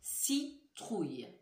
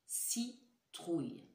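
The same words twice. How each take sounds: First: Citrouille said slowly, syllables clear; slow careful word. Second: Citrouille very slow and softer; slow soft word. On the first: Teacher slowly says citrouille for listening. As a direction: draw out Citrouille. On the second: Teacher repeats citrouille slowly and softly. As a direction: stretch Citrouille gently, syllable by syllable. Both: Shown as a demonstration. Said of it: "Réfléchissez bien".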